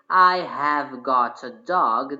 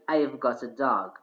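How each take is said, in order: First: The word have is said in full. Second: The word have is contracted to I've. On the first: The speaker calls it wrong. "we don't say, ... This is a long form" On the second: The speaker calls it right. "we just say, I've got"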